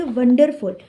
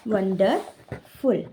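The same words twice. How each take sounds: First: Said in the usual way. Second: wonderful drawn out, a gap before फुल; split into syllables. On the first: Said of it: "एक और ऐसी तरीके की spelling होती है". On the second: Shown as a demonstration. Teacher counting syllables for students, wonderful said slowly in separated syllables. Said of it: "इसमें कितने syllable है".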